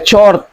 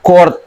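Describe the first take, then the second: First: The word begins with a ch sound. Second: The word begins with a k sound. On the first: The speaker calls it wrong. "bukan dibaca chord" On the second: The speaker calls it right. "dibaca chord"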